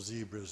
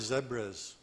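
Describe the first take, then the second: First: It is said in an American accent. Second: It is said in a non-American accent.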